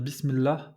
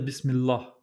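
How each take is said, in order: First: The L is plain, with no velarization. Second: The L is velarized, with a dark emphatic quality. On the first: The speaker calls it right. "On va dire Bismillah" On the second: The speaker calls it wrong. "on va pas dire Bismillah"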